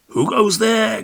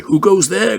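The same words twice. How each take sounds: First: High sentry challenge; called out. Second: High, loud sentry call; cried out. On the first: Will Sentry calling out to the flying moon, high. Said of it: "called out Will Sentry". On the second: Will Sentry crying out to a wild duck, high and loud. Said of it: "cried Will Sentry". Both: A narrator's reading.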